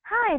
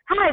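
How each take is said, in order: First: It is spoken at a normal, cheerful pace. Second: It is spoken very fast and energetically. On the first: The caller sounds friendly to a hurried listener. "you sound very nice and very happy" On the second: The caller sounds rushed to a relaxed listener. "Very fast, speaking fast"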